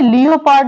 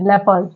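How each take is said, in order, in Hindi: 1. पहला अक्षर 'lee-o' की लंबी खिंची हुई आवाज़ है। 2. पहला अक्षर छोटी 'lep' जैसी आवाज़ है। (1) "लियोपार्ड नहीं पढ़ते" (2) "क्या पढ़ते हैं? लेपर्ड"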